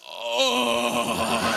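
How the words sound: It is said in a coarse, rough voice.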